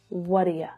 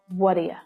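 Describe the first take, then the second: First: The last word is reduced to a weak 'ya'. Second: The same.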